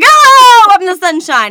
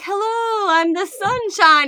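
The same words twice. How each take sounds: First: It is said in a harsh, unpleasant way. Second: It is said in a soft, gentle way.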